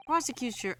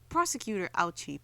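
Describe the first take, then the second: First: Raised call. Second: Said in the usual way. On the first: Acted.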